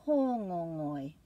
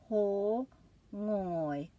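First: Hōngongoi said smoothly as one word, still careful; run together. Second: Hōngongoi very slow, a pause after every vowel; broken into vowels. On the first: Teacher repeating the word at normal flow. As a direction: blend hōngongoi into a single flowing word. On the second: Teacher modelling for students, slow and syllabic. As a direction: split Hōngongoi into its vowel beats. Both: Shown as a demonstration. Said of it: "make a break after each of those vowels".

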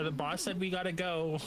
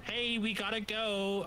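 First: Megaphone announcement. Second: Slow, high call through a megaphone; drawn-out hailing yell; mock megaphone yell. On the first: Pretend. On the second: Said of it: "yell at you in the megaphone".

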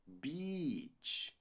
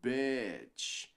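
First: "beach" with a long "ee", very drawn out; beach-word vowel BEACH. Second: "bitch" with a lax "eh"-like vowel; swear-word vowel BITCH. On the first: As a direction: slowly stretch "beach" as "beeech". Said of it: "praia se diz beach". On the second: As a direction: slowly model "bitch" as "betch". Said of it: "o palavrão se diz bitch". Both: Shown as a demonstration.

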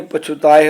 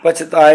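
First: ਪਛੁਤਾਏ with a light u after chh; ਪਛੁਤਾਏ, the aunkar lightly pronounced; short u sounded. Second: ਪਛਤਾਏ with no u after the chh; ਪਛਤਾਏ, dropping the short u; common misreading. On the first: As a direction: say ਪਛੁਤਾਏ as "pachhutaye". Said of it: "ਛੱਛੇ ਦੀ ਔਂਕੜ ਥੋੜ੍ਹੀ ਉਚਾਰਨ ਕਰਨੀ ਹੈ". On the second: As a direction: say ਪਛਤਾਏ as "pachhtaye". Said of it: "ਪਛਤਾਏ ਪੜ੍ਹ ਜਾਂਦੇ ਆ". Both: Shown as a demonstration.

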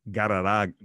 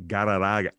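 No difference in how they are said.

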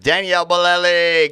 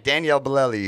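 First: Loud high triumphant name; excited shout. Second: Said in the usual way. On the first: Real, not acted. Name finally recalled.

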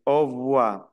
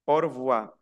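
First: Au revoir said o vwa, R dropped; first way of saying au revoir; au revoir without R. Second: Au revoir said o rvwa, R sounded before voir; second way of saying au revoir. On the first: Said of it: "como si fuera aquí como una F". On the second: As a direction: au revoir keeping the R. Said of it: "hay otros que pronuncian au revoir". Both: Shown as a demonstration.

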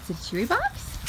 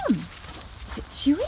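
First: Said in the usual way. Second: Whispered slowly to the dogs; slow teasing whisper to excited dogs. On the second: Real, not acted. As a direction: hush it like a secret. Teasing excited dogs about the box.

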